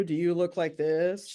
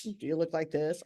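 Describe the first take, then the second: First: Slow, drawn-out frazzled ask; playful frazzled question to the audience; mock frazzled. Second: Said in the usual way. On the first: Shown as a demonstration. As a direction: ham up a stressed-out face.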